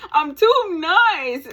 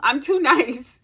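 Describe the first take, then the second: First: Higher, louder, stretched-out TOO and NICE; exaggerated emphasis. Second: Said in the usual way. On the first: Real, not acted. Vlogger repeats her own complaint to viewers, exaggerated emphasis. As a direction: drag out "too nice" loudly, pitched up.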